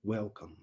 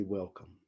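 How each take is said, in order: First: Put-on soft rasp of a very elderly woman; elderly woman greeting Antoine with a soft rasp; raspy gravelly voice. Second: Soft, lower, tender "Welcome."; Jesus greeting a soul at heaven's door, tenderly. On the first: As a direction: rasp the welcome gently like an old grandmother. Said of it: "In a very raspy, gravelly voice". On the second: Acted. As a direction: welcome them home gently, softer.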